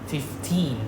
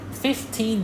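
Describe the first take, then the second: First: Only the second syllable carries stress. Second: Both syllables carry stress. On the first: The speaker calls it wrong. "it's not fifteen the second syllable" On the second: The speaker calls it right. "fifteen dollar we stress both"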